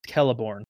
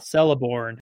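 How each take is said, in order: First: The name begins with a K sound. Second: The name begins with an S sound. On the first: The speaker calls it right. "CEs are pronounced K" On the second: The speaker calls it wrong. "it's not Celeborn"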